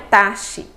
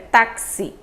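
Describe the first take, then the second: First: The x is not pronounced as ks. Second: The x is pronounced as ks. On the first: The speaker calls it wrong. "não é taxi" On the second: The speaker calls it right. "Esse X já tem esse som de K S"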